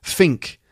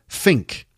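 The two takes are said the same way.

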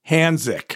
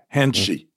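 First: The middle consonant is a plain s sound. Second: The middle consonant is an sh sound. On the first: It is a non-native pronunciation. The speaker calls it wrong. "that doesn't sound like Korean at all" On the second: It is a native-like pronunciation. The speaker calls it right. "the second one is more like Hanshi"

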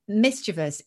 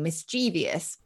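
First: The word ends in a short '-ivus' sound. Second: The word ends in '-evious', like devious. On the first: This is the older pronunciation. "very few words that end in ivus anymore" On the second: This is the newer pronunciation. "more words that end in evious, like devious"

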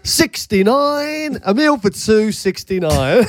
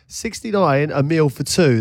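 First: It is said in a put-on bingo-caller voice. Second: It is read out in his plain voice.

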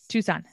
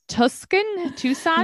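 First: The word is said like 'Tooson', without a k sound. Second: The word is said like 'Tuscan', with a k sound. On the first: The speaker calls it right. "Right, the second time" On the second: The speaker calls it wrong. "I say this wrong"

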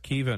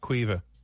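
First: The name starts with a plain k sound. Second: The name starts with a kw sound. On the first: The speaker calls it right. "Kiva, not Cuiva. My apologies" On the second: The speaker calls it wrong. "not Cuiva"

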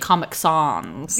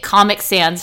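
First: It is said in a put-on fancy accent. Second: It is said plainly, in an ordinary accent.

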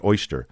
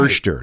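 First: The first vowel sounds like 'oy'. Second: The first vowel sounds like 'er'. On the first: This is the standard way used elsewhere. "not oyster" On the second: This is the local regional way. "OIs are usually pronounced like R's"

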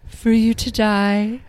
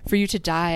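First: It is said in a dramatic way. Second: It is said flatly, matter of fact.

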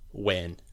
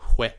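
First: The word starts with a plain w sound. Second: The word starts with a breathy fricative sound. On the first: "if you were to do a generic Scottish accent, you'd probably go like" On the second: "He has kind of this fricative that comes into it"

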